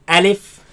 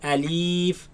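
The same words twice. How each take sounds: First: The word is said quickly and short. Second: The word is drawn out slowly. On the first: The speaker calls it right. "Say alif. / pronounce it fast" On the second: The speaker calls it wrong. "do not say alif"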